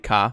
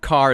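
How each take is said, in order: First: The final R is dropped for an ah. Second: The final R sound is pronounced. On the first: "you're going to turn that R into an A H" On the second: "instead of car"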